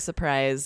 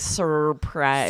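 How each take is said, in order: First: The first R is dropped. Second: The first R is clearly pronounced. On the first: The speaker calls it right. "we kind of say surprise and just ignore that first R" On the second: The speaker calls it wrong. "We don't say surprise"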